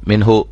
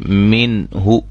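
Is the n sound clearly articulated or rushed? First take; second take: rushed; clear. First: The n is rushed and not fully articulated. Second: The n is fully and clearly articulated. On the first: The speaker calls it wrong. "ऐसे जल्दी में मिनहु" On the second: The speaker calls it right. "वाज़ेह ज़ाहिर करके खूब उनकी नून को उसके मखरज से और सिफात के साथ अदा करके"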